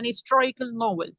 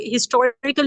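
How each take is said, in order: First: "हिस्टोरिकल novel" starting as istorical; dropped H. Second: "हिस्टोरिकल" with an audible H at the start; sounded H. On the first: Teacher showing what was said, "हिस्टोरिकल" with H dropped. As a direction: say "हिस्टोरिकल" with the H silent. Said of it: "बोला हिस्टोरिकल novel". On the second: Teacher showing what was not said, "हिस्टोरिकल" with H sounded. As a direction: say "हिस्टोरिकल" pronouncing the H. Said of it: "हिस्टोरिकल नहीं बोला उन्हें". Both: Shown as a demonstration.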